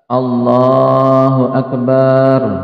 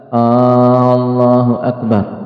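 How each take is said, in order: First: The vowel after b is drawn out long. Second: The opening vowel is drawn out long. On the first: The word turns into a plural meaning drums. "ketika memanjangkan ba" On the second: It turns the phrase into a question. "dengan memanjangkan hamzah"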